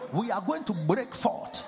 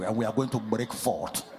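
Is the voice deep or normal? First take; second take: normal; deep. First: It is said in a normal voice. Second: It is said in a very deep voice.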